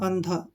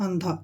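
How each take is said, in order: The two takes are said the same way.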